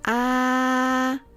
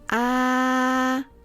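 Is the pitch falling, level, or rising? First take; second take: level; level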